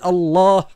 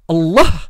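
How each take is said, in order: First: The second vowel is held long. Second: The second vowel is short, not lengthened. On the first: The speaker calls it right. "il y a une élongation du alif" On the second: The speaker calls it wrong. "ça n'existe pas"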